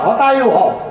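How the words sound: The first word begins with an h sound. "সেখানে বলে হতায়ু হও"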